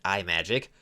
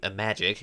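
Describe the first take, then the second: First: The name begins with a separate 'eye' sound. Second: The name begins with a short 'im' sound. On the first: "try to pronounce it iMagic, and then they'd get sued by Apple" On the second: "the name Imagic"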